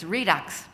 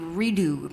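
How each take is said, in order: First: The word ends with a final 'ks' sound. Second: The word ends without a final 'ks' sound. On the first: The speaker calls it right. "but it's Redux" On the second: The speaker calls it wrong. "I thought it would be redo"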